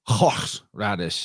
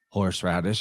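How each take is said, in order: First: The opening breathy sound is harsh and throaty. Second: The opening breathy sound is soft and light. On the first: "others will be like" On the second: "some will be soft"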